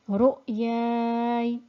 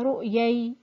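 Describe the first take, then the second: First: A lengthened vowel is followed by a still y. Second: The final y sound is doubled. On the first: The speaker calls it right. "So stopping would be" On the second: The speaker calls it wrong. "don't make it into a shadda"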